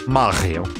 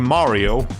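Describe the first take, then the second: First: The name is said with a French pronunciation. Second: The name is said with an English pronunciation. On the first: "because that's how you would say that in French" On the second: "We're not gonna be calling him Mario"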